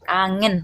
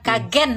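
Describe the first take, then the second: First: The middle has a clear 'ng' sound. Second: The middle is a plain 'g' without 'ng'. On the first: The speaker calls it right. "Kangen, ngen, ngen" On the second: The speaker calls it wrong. "ngen bukan kagen. No, no kagen no"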